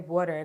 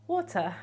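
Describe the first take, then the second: First: It is said in an American accent. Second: It is said in a South African accent. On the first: "they don't say water" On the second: "they say water ... South African impersonations"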